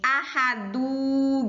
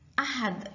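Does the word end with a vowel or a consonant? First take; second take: vowel; consonant. First: The word ends with a final u vowel. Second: The word ends on the consonant d. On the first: The speaker calls it wrong. "Menjadi ahadu gitu tidak" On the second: The speaker calls it right. "bukan seperti ini bacanya ahad. Ahad gitu"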